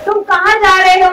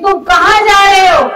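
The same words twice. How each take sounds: First: It sounds like a plain, neutral question. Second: It sounds like a warning, trying to stop someone.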